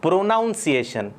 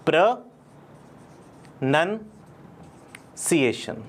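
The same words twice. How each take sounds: First: Wrong take, प्रोनाउंसिएशन as "pro-NOWN-see-ay-shun"; wrong pronunciation. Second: Slowly and carefully, प्रोनंसिएशन as "pro-nun-see-AY-shun"; drawn out, प्रोनंसिएशन with "nun" not "nown"; correct pronunciation. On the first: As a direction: say प्रोनाउंसिएशन with "nown", the common mistake. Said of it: "ये बिल्कुल प्रोनाउंसिएशन नहीं है". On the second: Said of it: "इसको कहते हैं हम". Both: Shown as a demonstration.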